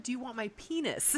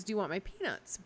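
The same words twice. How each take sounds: First: "peanuts" misheard as "penis", no t sound; misheard word. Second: Said in the usual way. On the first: Retold or imitated. Friend retells what she misheard at dinner, "penis" for "peanuts". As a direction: say "penis" clearly in place of "peanuts". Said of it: "But I didn't hear that". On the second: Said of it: "he thought they were peanuts".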